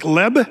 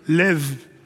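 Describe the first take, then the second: First: The word ends with a B sound. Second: The word ends with a V sound. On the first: The speaker calls it wrong. "it looks like leb" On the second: The speaker calls it right. "it's actually more of a V sound"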